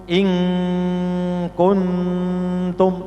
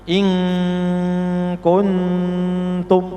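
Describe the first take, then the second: No difference in how they are said.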